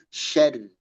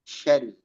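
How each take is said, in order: No difference in how they are said.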